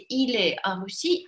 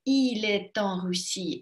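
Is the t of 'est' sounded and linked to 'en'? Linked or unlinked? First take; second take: unlinked; linked. First: The t of est is silent, no link. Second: The t of est is linked to en. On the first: It is the everyday way most people say it. "Но второй ни в коем случае не какой-то, например, вульгарный" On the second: It sounds careful and attentive to speech. "можете красиво произносить"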